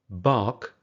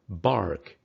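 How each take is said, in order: First: There is no r sound after the vowel. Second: An r sound is heard after the vowel. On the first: "British English" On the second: "American English"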